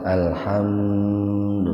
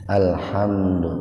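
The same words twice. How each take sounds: First: The m sound is held out and clearly separated. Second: The m sound is said plainly and briefly. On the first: The speaker calls it wrong. "nggak usah alhamdu, nggak usah begitu" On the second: The speaker calls it right. "Jadi dibacanya biasa saja"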